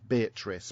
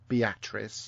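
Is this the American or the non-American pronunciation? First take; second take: non-American; American. First: It is said the speaker's own non-American way. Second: It is said the way the Americans say it. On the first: This is the proper way to say it. The speaker calls it right. "It's Beatrice" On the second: This is how the locals say it. The speaker calls it wrong. "they call it Beatrice"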